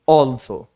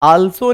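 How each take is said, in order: First: The first vowel is a rounded 'aw' sound. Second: The first vowel is an open 'aa' sound. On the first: The speaker calls it right. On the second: The speaker calls it wrong.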